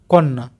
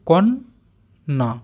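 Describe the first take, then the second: First: Said in the usual way. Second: কন্যা said slowly, syllable by syllable; slow careful. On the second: Shown as a demonstration. Teacher slowly sounding out কন্যা for pupils. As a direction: draw out কন্যা. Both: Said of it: "আস্তে আস্তে উচ্চারণ করি".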